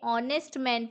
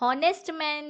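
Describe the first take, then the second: First: The h at the start is silent. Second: The h at the start is pronounced. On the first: The speaker calls it right. "ऑनेस्ट man पढ़ेंगे" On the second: The speaker calls it wrong. "हॉनेस्ट man नहीं पढ़ेंगे इसे"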